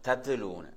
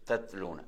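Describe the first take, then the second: First: The t is released with an extra bouncing vowel. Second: The t is held closed without any bounce. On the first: The speaker calls it wrong. "சிலவங்க வந்து தத்துலூனுவாங்க. தத்துலூனு அப்படி சொல்றதல்ல" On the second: The speaker calls it right. "அந்த சுக்குன்ல அப்படி நின்று சொல்ல நினைச்சா தத்லூன"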